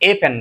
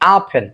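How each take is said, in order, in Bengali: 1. আর্টিকেলটি 'ay' স্বরধ্বনির মতো উচ্চারিত হয়। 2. আর্টিকেলটি ছোট স্বরধ্বনি 'uh'-এর মতো উচ্চারিত হয়। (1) "এ পেন না" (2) "আই হ্যাভ আ পেন"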